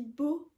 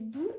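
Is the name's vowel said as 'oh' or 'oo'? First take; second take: oh; oo. First: The vowel sounds like 'oh'. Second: The vowel sounds like 'oo'. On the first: This is how the French version says it. The speaker calls it wrong. "Dans le film, il dit Beau" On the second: This is the original name, meant to suggest a ghost. The speaker calls it right. "mais il y a deux O, c'est Boo"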